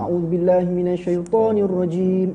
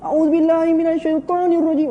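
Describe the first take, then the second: First: It is said loudly without shouting. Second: It is shouted at full force.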